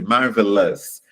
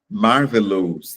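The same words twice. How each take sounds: First: The vowel in the ending sounds open. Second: The vowel in the ending sounds closed. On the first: The speaker calls it right. "ele abre, ele expande" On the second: The speaker calls it wrong. "tende a pronunciar marvelous, né? Fechando"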